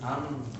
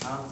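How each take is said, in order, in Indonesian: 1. Bunyinya bergema bebas melalui hidung. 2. Bunyinya teredam ketika hidung dijepit. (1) "Hidung ini bergetar ketika mengucapkan huruf-huruf tersebut" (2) "Ketika hidung ditutup, maka suaranya berubah"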